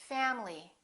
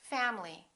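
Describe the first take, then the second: The two takes are said the same way.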